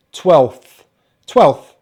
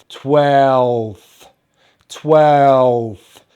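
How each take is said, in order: First: Said in the usual way. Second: "twelfth" stretched long and loud, F not V; drawn-out pronunciation. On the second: Shown as a demonstration. Teacher modelling twelfth for learners, drawn out sound by sound. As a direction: draw out "twelfth", ending in unvoiced f and th. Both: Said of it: "We have the F sound".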